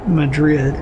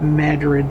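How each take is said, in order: First: It is said like the Spanish capital's name. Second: It is said the local American regional way. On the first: This is how the city in Spain is named. The speaker calls it wrong. "not Madrid" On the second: This is how locals name their town. The speaker calls it right. "we pronounce that Madrid"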